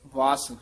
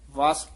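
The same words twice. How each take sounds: The two takes are said the same way.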